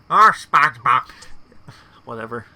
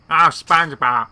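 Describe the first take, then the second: First: Even louder fed-up Squidward cry; loud annoyed cartoon neighbour; Squidward impression. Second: Loud, exasperated Squidward groan; loud annoyed cartoon neighbour; Squidward impression. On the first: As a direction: push the exasperation harder. Repeats Squidward's exasperated line. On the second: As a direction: whine it like fed-up Squidward. Mimics Squidward's exasperated line.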